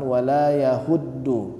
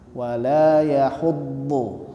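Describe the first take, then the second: First: The consonant is light, like a plain d. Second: The consonant is heavy, with a thick emphatic sound. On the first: The speaker calls it wrong. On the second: The speaker calls it right.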